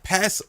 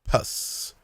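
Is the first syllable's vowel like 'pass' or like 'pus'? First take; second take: pass; pus. First: The vowel sounds like the one in 'pass'. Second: The vowel sounds like the one in 'pus'.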